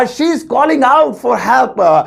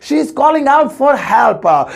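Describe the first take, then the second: First: Slow careful English. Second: Slow second take, weight on out; slow careful English repeat. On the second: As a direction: repeat slowly, leaning on out. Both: Shown as a demonstration. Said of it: "so English होगी".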